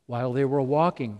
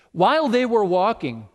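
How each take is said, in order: First: While they were walking run off quickly and lower; quick plain repeat. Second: While punched high and loud; stress on while. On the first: Preacher repeating the miracle, quick and unstressed. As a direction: toss While off fast, no stress. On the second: Preacher repeating the miracle, While stressed high. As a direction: hit the word While, louder and higher. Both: Shown as a demonstration.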